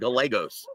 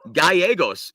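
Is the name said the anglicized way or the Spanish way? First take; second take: anglicized; Spanish. First: The name is said in an anglicized form. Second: The name is said in its native Spanish form. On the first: The speaker calls it wrong. "the entire week is pronouncing it" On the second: The speaker calls it right. "pronounce his name properly"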